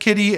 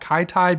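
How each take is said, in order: First: The first vowel sounds like in 'kit'. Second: The first vowel sounds like in 'kite'. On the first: The speaker calls it right. "I'm gonna say it's Kitty" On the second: The speaker calls it wrong. "not Kaitai because that sounds a little weird"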